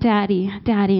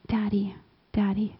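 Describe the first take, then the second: First: It sounds more sure and confident. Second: It sounds hesitant and awkward.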